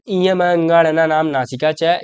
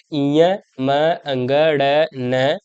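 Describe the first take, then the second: First: Said in the usual way. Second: इयम अंगण न drawn out very slowly, each nasal held; slow demonstration of the nasal sounds; slow nasal demo. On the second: Shown as a demonstration. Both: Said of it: "आप जब बोलोगे तो आपको देखो".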